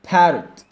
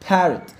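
The two takes are said the same way.

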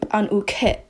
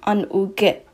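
First: The final consonant has a puff of air. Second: The final consonant has no puff of air. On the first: The speaker calls it wrong. "you do not say an-uke. It does not have a puff of air" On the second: The speaker calls it right. "It's basically a K"

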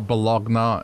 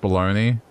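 First: It is said as spelled, ending in 'nya'. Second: It is said as 'baloney', ending in 'nee'. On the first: The speaker calls it wrong. "I said Bologna" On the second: The speaker calls it right. "How Bologna is pronounced baloney"

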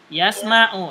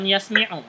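First: The vowel after 'sm' is 'a'. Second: The vowel after 'sm' is 'i'. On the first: The speaker calls it right. "Yasma'u ya" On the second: The speaker calls it wrong. "bukan yasmi'u"

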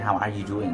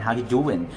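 First: The word 'are' is fully pronounced. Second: The word 'are' is dropped entirely. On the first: The speaker calls it wrong. "มันจะไม่เป็น how are you doing" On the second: The speaker calls it right. "to make it shortly to make it like natural"

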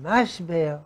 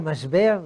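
First: It is said in an Ashkenazi accent. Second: It is said in a standard Israeli accent.

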